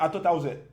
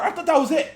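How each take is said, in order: First: Said in the usual way. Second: Laughing disbelief. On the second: Real, not acted. Laughing after surprise.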